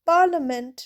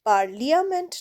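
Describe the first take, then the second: First: The i is silent with no extra vowel. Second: The i is sounded as an extra vowel. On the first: The speaker calls it right. "পার্লামেন্টে দেখো আইটা কিন্তু silent." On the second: The speaker calls it wrong. "নয়"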